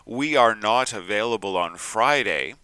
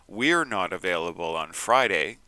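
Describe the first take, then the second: First: The words 'we are' are said in full. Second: The words 'we are' are contracted to 'we're'. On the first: The speaker sounds rigid. The speaker calls it wrong. "can make you sound too rigid" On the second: The speaker sounds natural and fluent. The speaker calls it right. "contractions make you sound natural and fluent"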